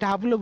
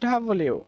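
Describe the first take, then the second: First: The letter name is said in two syllables. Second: The letter name is said in three syllables. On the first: The speaker calls it wrong. "এটাকে আমরা ডাবলু বলে থাকি" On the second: The speaker calls it right. "এটা হচ্ছে ডাবল ইউ"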